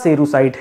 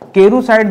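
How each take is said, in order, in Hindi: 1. यह शब्द S ध्वनि से शुरू होता है। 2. यह शब्द K ध्वनि से शुरू होता है। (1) "होता सेरुसाइट है" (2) "केरुसाइट दोस्तों गलत है"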